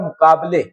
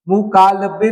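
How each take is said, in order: First: The b sound comes before the l. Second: The l sound comes before the b. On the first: The speaker calls it right. "क्या होता है?" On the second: The speaker calls it wrong. "नहीं होता"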